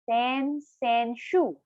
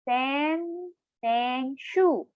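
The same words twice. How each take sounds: First: It is said at normal speed. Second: It is said slowly, syllable by syllable.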